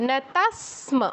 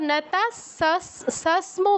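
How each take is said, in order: First: The s sound is said once, joined to m. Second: The s sound is said twice, split apart. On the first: The speaker calls it right. "এখানে যে স এর উচ্চারণটা হচ্ছে ওখানেও তেমনই হবে" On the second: The speaker calls it wrong. "এই জন্য আমরা নতাস সস্ম বলবো না"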